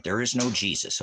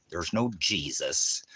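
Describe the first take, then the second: First: Said in the usual way. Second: "There's no Jesus" said slowly, word by word; slow emphatic. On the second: Shown as a demonstration. Repeating to a commenter slowly and firmly. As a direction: spell it out slowly. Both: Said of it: "we'll put it in here one more time".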